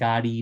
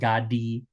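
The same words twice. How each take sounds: First: The middle consonant sounds like a flapped r. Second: The middle consonant sounds like a d. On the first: The speaker calls it right. "da is often pronounced as ara" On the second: The speaker calls it wrong. "not gadi"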